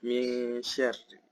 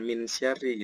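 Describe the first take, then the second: First: The n is blurred into a soft nasal. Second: The n is pronounced clearly and firmly. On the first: The speaker calls it right. "Jadi bacanya samar ya" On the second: The speaker calls it wrong. "Bukan min bukan min syarri gitu ya"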